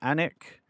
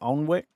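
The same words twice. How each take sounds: First: The name is not said the way it's spelled. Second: The name is said just as it's spelled. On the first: This is how the locals say it. The speaker calls it right. "They pronounce it Alnwick" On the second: This is how an outsider reads it. The speaker calls it wrong. "when I pronounced it Alnwick because that's how it's spelt"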